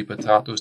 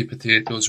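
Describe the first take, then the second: First: "potatoes" as puh-TAH-toes; a long AH in the middle of "potatoes"; joke British pronunciation. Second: "potatoes" as puh-TAY-toes; an AY sound in the middle of "potatoes"; American pronunciation. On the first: Teacher showing what we say, "potatoes" with TAH. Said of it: "we say potatoes". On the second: Teacher showing what they say, "potatoes" with TAY. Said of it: "They say potatoes". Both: Shown as a demonstration.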